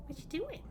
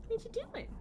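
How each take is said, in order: First: Said in the usual way. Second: Squeaky high coo at the pet. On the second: Real, not acted. Cooing at the pet.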